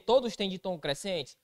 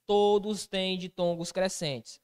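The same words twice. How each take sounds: First: Todos têm ditongos crescentes? with a rising quiz tune; asking as a question. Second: Todos têm ditongos crescentes, slow and falling as a firm answer; slow, emphatic confirmation; confirming answer. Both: Shown as a demonstration.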